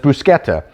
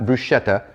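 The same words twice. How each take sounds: First: The word is said with a non-American pronunciation. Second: The word is said with an American pronunciation. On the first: The speaker calls it right. "but it's bruschetta" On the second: The speaker calls it wrong. "It's not bruschetta. That's kind of the American pronunciation"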